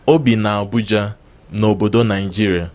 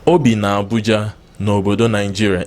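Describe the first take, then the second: No difference in how they are said.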